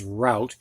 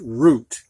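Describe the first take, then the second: First: "route" said like rout, rhyming with out; ow pronunciation. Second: "route" said like root, with a long oo; oo pronunciation. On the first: Teacher giving the other pronunciation with an E, "route" said as rout. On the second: Teacher giving the first pronunciation with an E, "route" said as root. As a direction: say "route" to rhyme with boot. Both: Shown as a demonstration. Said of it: "it can be pronounced route as well as route".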